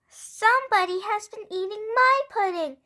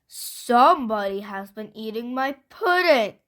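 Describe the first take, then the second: First: It is said in a wee little voice. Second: It is said in a great big voice.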